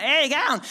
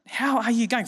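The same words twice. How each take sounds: First: Slurred "How you going?" said as "ow gawn"; broad Australian mumble. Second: "how are you going?" with every word spelled out clearly; full words. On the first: Retold or imitated. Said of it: "I don't even know how to spell that". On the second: Shown as a demonstration. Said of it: "you just put".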